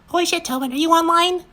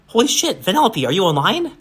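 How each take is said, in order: First: It is said in a mocking, childlike voice. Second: It is said as a sincere question.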